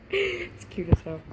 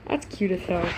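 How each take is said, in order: First: High, slow laughing squeal; squealing with laughter. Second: Said in the usual way. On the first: Real, not acted. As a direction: giggle through the words. Reader laughs saying it.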